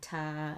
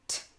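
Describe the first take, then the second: First: The consonant is followed by an extra vowel. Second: The consonant is said alone, with no vowel. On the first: The speaker calls it wrong. "We're not saying ma and pa and ta and ka" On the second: The speaker calls it right. "We want to keep them nice and clean"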